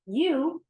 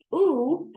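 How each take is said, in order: First: U said as yoo with a y glide, as in uniform, higher; long yoo phoneme; yoo sound. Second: U said as a pure long oo with no y glide, as in mood, higher and louder; long oo phoneme; oo sound. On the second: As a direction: round the lips and hold U like in mood. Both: Shown as a demonstration. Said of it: "I'll model each sound".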